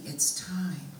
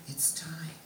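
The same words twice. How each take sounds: First: Said in the usual way. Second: Soft, voiceless whisper; hushed whisper. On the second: Retold or imitated. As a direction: whisper it as a solemn message passed on. Message repeated in a hush.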